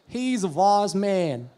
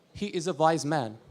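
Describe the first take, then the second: First: Slow, stretched Alabama drawl; Alabama accent. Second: Said in the usual way. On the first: Shown as a demonstration. Comedian demonstrating Southern speech to audience, Alabama accent. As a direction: draw it out in Southern Alabama English. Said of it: "called the Alabama accent". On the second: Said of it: "few sentences, to be sure".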